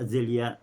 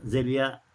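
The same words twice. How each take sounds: No difference in how they are said.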